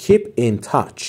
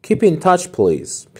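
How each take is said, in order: First: Slow model. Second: Higher slower model. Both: Shown as a demonstration.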